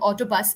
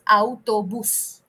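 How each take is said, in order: First: The word is said with an English pronunciation. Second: The word is said with a Spanish pronunciation. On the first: "I'm saying autobus in English" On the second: "In Spanish, all it becomes autobus, it becomes autobus"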